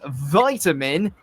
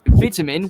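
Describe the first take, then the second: First: The first vowel is long, as in 'bite'. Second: The first vowel is short, as in 'bit'.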